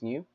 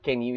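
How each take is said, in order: First: The word starts with an n sound. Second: The word starts with a k sound. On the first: The speaker calls it right. "It's new" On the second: The speaker calls it wrong. "it's not can you"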